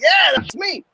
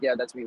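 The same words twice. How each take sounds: First: It is said with exaggerated, amplified energy. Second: It is said in a plainer, subdued way. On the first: This is a dramatized retelling. "I didn't say it like that. I'm amplifying it a little bit more" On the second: This is how it was actually said. "In reality, I was like"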